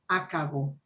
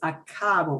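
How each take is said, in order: First: The middle syllable is not stressed. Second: The middle syllable is stressed. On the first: The speaker calls it wrong. "not acabo" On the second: The speaker calls it right. "we want to punch the, the ka"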